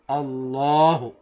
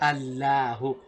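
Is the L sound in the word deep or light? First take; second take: deep; light. First: The L sound is deep and heavy. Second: The L sound is light and thin. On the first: The speaker calls it right. "We say Allahu. Okay? A little bit deeper now" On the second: The speaker calls it wrong. "We don't say Allahu"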